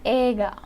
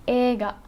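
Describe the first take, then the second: No difference in how they are said.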